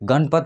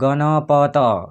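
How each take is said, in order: First: An inherent 'a' vowel is dropped in speech. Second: Every syllable keeps its full 'a' vowel. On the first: The speaker calls it right. "गणपत सीधा बोल रहे हैं" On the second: The speaker calls it wrong. "ऐसे थोड़े बोल रहे हैं गणपत"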